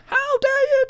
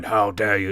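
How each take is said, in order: First: Shrieked way up high, much louder; Kevin Kelly's squeaky scream. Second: Said in the usual way. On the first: Retold or imitated. Host mimics the wrestler yelling at his boss, sky-high shriek. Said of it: "screaming at a very, very high pitch". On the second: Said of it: "instead of going".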